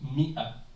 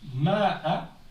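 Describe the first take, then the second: First: The first vowel is an 'i' sound. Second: The first vowel is an 'a' sound. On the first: The written alif is ignored. The speaker calls it right. "sauf qu'on le prononce Mi'a" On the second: This follows the written letters. The speaker calls it wrong. "c'est comme si ça s'écrit Ma'a"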